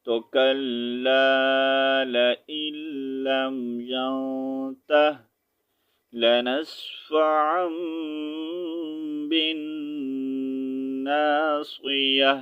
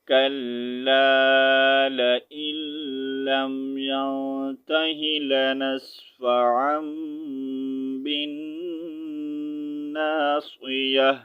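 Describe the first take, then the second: First: Reading with a stop at ینتہ; stopping reading. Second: Connected tajweed reading; joined reading. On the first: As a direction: pause after ینتہ, then start لنسفعا fresh. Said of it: "اگر stop کریں گے، رکنا چاہیں گے". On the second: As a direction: read the whole phrase connected, saying ینتہی لنسفعا. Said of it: "اگر ملا کر پڑھیں گے". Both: Shown as a demonstration.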